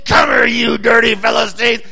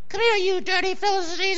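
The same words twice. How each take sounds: First: The voice is low, big and gruff. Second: The voice is small and high-pitched. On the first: The speaker is a huge, muscular man. "I always picture some big bruiser" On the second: The speaker is a small, weak man. "it's just a little guy"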